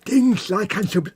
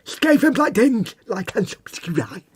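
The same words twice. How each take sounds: First: "Dinge" said slowly, with a lateral lisp; slow and higher, lisping through the side of the mouth. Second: "Skaven Blight Dinge" said slowly in a higher, lisping voice; lateral lisp. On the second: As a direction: lisp "subscribe" out of the side of the mouth, slowly. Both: Shown as a demonstration. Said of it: "everything sounds better with a lateral lisp".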